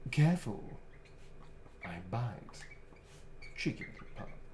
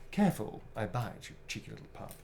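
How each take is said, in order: First: It is said in Astarion's character voice. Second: It is read in his own plain voice.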